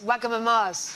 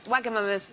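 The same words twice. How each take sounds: First: The name is said in a posh-sounding way. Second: The name is said in a plain, ordinary way.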